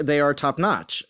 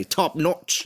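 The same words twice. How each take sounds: First: Said in the usual way. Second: Imitated Australian accent on "Top notch"; Seth Mapod. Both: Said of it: "as Seth Mapod would say".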